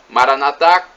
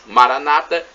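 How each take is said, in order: First: The stress falls on the final syllable. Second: The stress falls on the second-to-last syllable. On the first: This is how Catholics say it. "dizem os católicos" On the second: This is how Protestants or Evangelicals say it. "os protestantes ou evangélicos"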